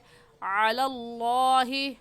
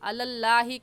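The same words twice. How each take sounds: First: The L sound in Allah is heavy, lips rounded. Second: The L sound in Allah is thin and light. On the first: The speaker calls it right. "सही है" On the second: The speaker calls it wrong. "कहना गलत है"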